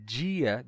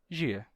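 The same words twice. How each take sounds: First: The word begins with a full D sound. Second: The word begins with only a J sound.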